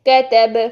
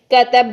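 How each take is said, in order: First: کتب ending with a bounced, echoing ب; shaken final b, right way. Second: کتب with the final ب shut off dead, no echo; clipped stop, wrong way. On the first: Teacher shows pupils the correct pause: کتب with the ب bounced. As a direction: let the ب of کتب bounce and ring out. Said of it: "جب وقف کریں گے". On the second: Teacher shows pupils the wrong way: کتب closed flat. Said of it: "یوں بند کر دیتے". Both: Shown as a demonstration.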